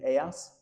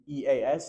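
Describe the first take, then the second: First: The letters are spoken with Spanish letter names. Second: The letters are spoken with English letter names.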